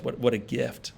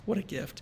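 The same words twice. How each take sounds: First: Said in the usual way. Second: Higher and much softer, breathed out in awe; a reverent, almost whispered echo; awed hush. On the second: Real, not acted. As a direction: let "What a gift" float up, high and hushed. Repeats phrase, second take hushed.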